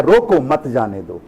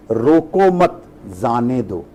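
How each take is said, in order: First: Quicker reading, "रोको", then "मत जाने दो"; group मत with जाने दो; break after रोको. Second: Slow "रोको मत", break, then "जाने दो"; group मत with रोको, pause before जाने; low, drawn-out line split after मत. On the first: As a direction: set रोको apart, run मत जाने दो together. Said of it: "और कोई आके पढ़ता है". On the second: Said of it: "अर्थ का अनर्थ हो गया ना". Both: Shown as a demonstration.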